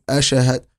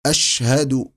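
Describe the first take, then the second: First: أشهد with the ش cut and jolted like qalqala; mock wrong qalqala; bounced shin. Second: أشهد with a lengthened opening hamza; mock wrong hamza; hamza stretched. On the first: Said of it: "قلقل في الشين". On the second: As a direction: drag the first vowel as the error. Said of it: "خطأ". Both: Shown as a demonstration.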